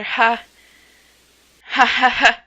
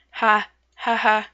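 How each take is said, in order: First: Loud, stiff ha ha ha; louder forced laugh. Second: Small hesitant ha ha ha; quiet forced laugh. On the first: Told to laugh louder, loud forced ha ha ha. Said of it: "You should laugh louder". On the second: First shy attempt at laughing at the sea, timid ha ha. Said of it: "You're getting there". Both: Acted.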